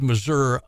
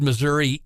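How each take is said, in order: First: The word ends with an 'uh' sound. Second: The word ends with an 'ee' sound. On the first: "U H" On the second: "E E"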